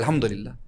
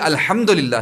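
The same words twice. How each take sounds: First: The h is a light breathy sound from the chest. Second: The h is a harsh sound from the throat. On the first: All weaknesses belong to God. The speaker calls it wrong. "मैंने कैसे कह दिया अल्हम्दुलिल्लाह?" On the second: All praise belongs to God. The speaker calls it right. "हालाँकि ये अल्हम्दुलिल्लाह है"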